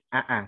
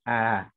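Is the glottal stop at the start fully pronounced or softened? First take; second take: full; softened. First: The hamzah is said with a full glottal stop. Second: The hamzah is softened, said lazily toward a vowel. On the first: The speaker calls it wrong. "bukan a" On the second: The speaker calls it right. "seperti mengucapkan hamzah tapi agak malas"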